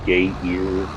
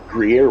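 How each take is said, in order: First: The word is said as gay ear. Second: The word is said as groo-yair.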